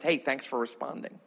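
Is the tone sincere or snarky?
sincere. It is said in a sincere, friendly tone.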